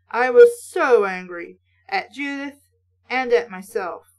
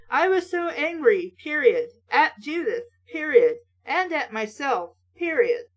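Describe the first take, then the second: First: Said in the usual way. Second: "I was so angry, period, at Judith, period" with each "period" spoken as a clipped full stop and a pause; pauses marked with period. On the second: Shown as a demonstration. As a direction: chop it into fragments, saying "period" after each. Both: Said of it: "those are not sentences".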